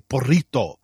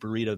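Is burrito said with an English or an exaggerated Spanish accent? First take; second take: Spanish; English. First: It is said with an exaggerated Spanish accent. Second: It is said with a plain English accent. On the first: "they'd say burrito, right? Very exaggerated" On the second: "instead of saying burrito"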